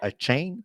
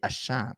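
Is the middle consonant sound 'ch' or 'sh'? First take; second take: ch; sh. First: The middle consonant is a 'ch' sound. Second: The middle consonant is an 'sh' sound. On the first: The speaker calls it wrong. "c'est pas a chain" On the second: The speaker calls it right. "c'est a shan"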